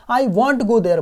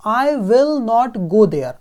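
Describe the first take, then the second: First: I won't go there with will not shortened to one word, won't; contracted form. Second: I will not go there said slowly with will and not as full separate words; full form. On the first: Teacher shows the short form after the full one. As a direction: say won't as a single quick contraction. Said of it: "will not को मैं want बोल के कैसा करूँगा?". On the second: Teacher contrasts the full will not with the contraction. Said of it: "को contract करके हम want will बोल देते हैं". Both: Shown as a demonstration.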